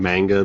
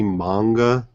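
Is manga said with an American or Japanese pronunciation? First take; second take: American; Japanese. First: It is said the American way, like mango. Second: It is said the Japanese way, with open vowels.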